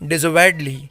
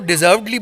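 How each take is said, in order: First: It is said with four syllables, 'de-serv-ed-ly'. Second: It is said with three syllables, like 'deserved-ly'. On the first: The speaker calls it right. "But the correct pronunciation ... it's डिजर्वेडली" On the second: The speaker calls it wrong. "वैसे लोग इसको डिजर्वडली बोलते हैं, जैसे डिजर्व word होता है"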